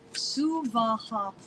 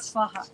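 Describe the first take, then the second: First: The word is said with three equal syllables. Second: The word is said with two syllables. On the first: The speaker calls it right. "Three equal syllables" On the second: The speaker calls it wrong. "No, not Svaha"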